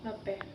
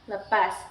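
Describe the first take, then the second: First: The word is said in the O dialect form. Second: The word is said in the Malay dialect form. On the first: "Adapun dialek O dengan penyebutan" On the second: "Yang pertama dialek Melayu. Penyebutannya seperti"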